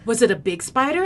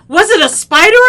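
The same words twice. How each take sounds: First: Said in the usual way. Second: Very loud, high question; acted shouted question; alarmed brother. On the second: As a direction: yell it as the panicking brother.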